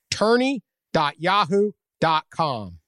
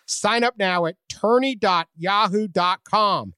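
First: Slow, clear repeat of the web address; slow emphatic URL. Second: Ad read. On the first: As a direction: spell out the site slowly. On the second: Ad call to action. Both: Acted.

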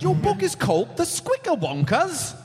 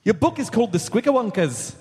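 First: Lilting Scottish brogue; Scottish accent. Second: A Scottish try that comes out Irish; Irish accent. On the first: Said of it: "only try Scottish". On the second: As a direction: put on an Irish brogue. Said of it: "Nope, that's Irish". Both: Pretend.

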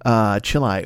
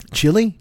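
First: "chili" said as chee-lie, rhyming with cilia; wrong pronunciation. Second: "Chili?" said as chilly, ending in -ee, rising; name pronunciation. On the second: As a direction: ask "Chili?" the normal way, chilly, like the singer's name. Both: Shown as a demonstration. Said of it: "No, it's Chili".

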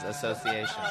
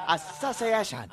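First: Said in the usual way. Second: Exaggerated, drawn-out Japanese-accent imitation of "Association"; hammed-up mock Japanese accent. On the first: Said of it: "when he says association". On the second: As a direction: say "Association" higher and slower in a caricatured Japanese accent. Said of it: "racist Japanese accent".

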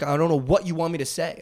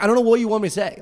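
First: Said in the usual way. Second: Higher, louder exasperated plea. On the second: Retold or imitated. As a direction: say it again, pleading louder. Repeated louder.

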